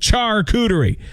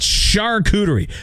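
First: The word begins with a ch sound. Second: The word begins with an sh sound. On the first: The speaker calls it right. "It says charcuterie, so I say charcuterie" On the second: The speaker calls it wrong. "not charcuterie"

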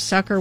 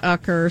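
First: The word begins with an s sound. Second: The word begins with a vowel, no s. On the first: The speaker calls it right. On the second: The speaker calls it wrong.

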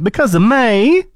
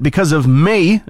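First: It is said in a put-on imitated voice. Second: It is said in the speaker's own normal voice.

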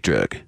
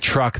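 First: The word is said with a country-singer drawl, sounding like 'drug'. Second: The word is said with a plain, standard pronunciation. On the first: "how country singers pronounce the word truck" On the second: "They don't say truck"

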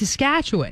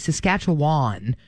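First: The final syllable is short and quick. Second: The final syllable is drawn out and long. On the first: The speaker calls it right. "It's kind of like a quicker ending" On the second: The speaker calls it wrong. "with a long wan sound at the end"

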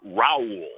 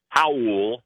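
First: The name begins with an English R sound. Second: The name begins with an H-like sound. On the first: This is the Americanized form of the name. The speaker calls it wrong. "the Americanized, the English version with the R is Raul" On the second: This is the native Brazilian form of the name. The speaker calls it right.

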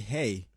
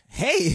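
First: It is said in his normal voice. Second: It is said in a put-on impression voice.

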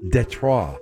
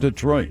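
First: It is said with a French pronunciation. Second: It is said with a plain English pronunciation.

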